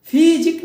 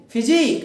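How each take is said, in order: First: physique with फि long, high and loud; wrong first-syllable stress. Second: physique with जिक long and stressed; short फि, land on जिक in physique; stress on last syllable. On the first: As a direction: punch फि at the start of physique. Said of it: "physique नहीं". (Physique में फि पर ज़ोर) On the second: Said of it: "उस पे हम स्ट्रेस देंगे". (फिजिक में जिक पर ज़ोर) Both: Shown as a demonstration.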